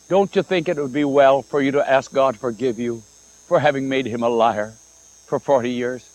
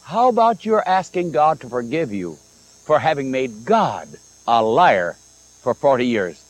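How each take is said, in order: First: Mellowed voice. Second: Said in the usual way. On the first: Retold or imitated. Pastor tries not to discourage the woman, mellowed voice. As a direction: soften it kindly so as not to discourage. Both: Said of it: "He tried to mellow his voice".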